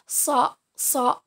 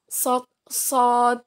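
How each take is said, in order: No difference in how they are said.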